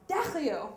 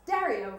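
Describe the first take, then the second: First: The name is said with a careful French accent. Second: The name is said with a plain American accent. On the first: "really trying to get the accent just right" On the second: "Maybe I'd pronounced it badly"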